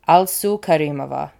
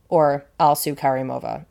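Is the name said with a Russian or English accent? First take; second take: Russian; English. First: It is said with a Russian accent. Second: It is said with an English accent.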